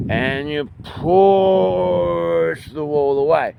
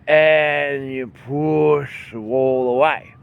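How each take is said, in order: First: Very slow, higher strained push; slower push. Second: Very slow, strained push of the words. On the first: Teacher repeating the wall push, slower and higher. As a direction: draw it out fully as you press. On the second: Teacher showing the wall push to students. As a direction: press the words out like moving a wall. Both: Shown as a demonstration. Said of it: "demonstrating pushing motion".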